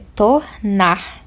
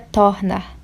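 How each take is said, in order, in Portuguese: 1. A tônica é a última sílaba. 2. A tônica é a primeira sílaba. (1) "é tornar. Então, a última sílaba é tônica" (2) "não é tornar"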